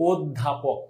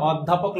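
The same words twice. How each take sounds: First: "অধ্যাপক" softer and lower, opening on a rounded o; everyday "অধ্যাপক" with closed o; natural pronunciation demo. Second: "অধ্যাপক" opening on an open aw; letter-true "অধ্যাপক" with open ô; wrong spelling pronunciation. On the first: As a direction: say "অধ্যাপক" as oddhapok. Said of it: "উচ্চারণ আমি যেমনে করি সেমনে". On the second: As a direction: say "অধ্যাপক" as awddhapok, as written. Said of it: "লেখা আছে মানে আমাকে এইভাবেই উচ্চারণ". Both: Shown as a demonstration.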